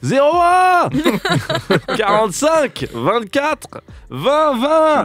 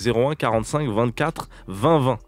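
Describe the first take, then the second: First: It is said slowly and calmly. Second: It is said quickly, without care.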